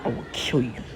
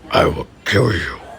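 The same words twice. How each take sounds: First: It is said in his ordinary voice. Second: It is said in a deep Darth Vader voice.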